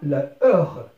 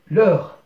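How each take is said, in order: First: The article's vowel is kept before the noun. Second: The article's vowel is dropped before the noun. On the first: "أصلها la heure" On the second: "on l'a remplacé par le signe apostrophe"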